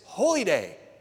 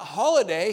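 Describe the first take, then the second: First: It is said as two separate words. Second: It is said as one blended word. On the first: A day that is sacred. The speaker calls it right. "he said it's holy day" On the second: An ordinary day off. The speaker calls it wrong. "he corrected me on the pronunciation, not holiday"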